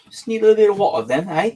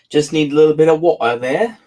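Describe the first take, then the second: First: Playful Cockney, quick and a bit higher; a joking Cockney narrator, quick; Cockney accent. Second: Said in the usual way. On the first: Shown as a demonstration. Reader tries a Cockney accent between chapters. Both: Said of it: "I'm working on my Cockney accent then".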